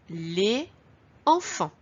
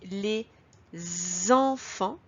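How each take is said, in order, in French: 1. Aucun son z ne relie 'les' et 'enfants'. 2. Un son z lie 'les' à 'enfants'. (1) "Si je ne fais pas la liaison" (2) "j'ai fait la liaison"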